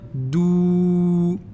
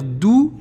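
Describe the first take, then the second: First: The vowel is drawn out long. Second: The vowel is short. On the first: "je vais dire dou. Je vais prolonger" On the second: "au lieu de dire dou"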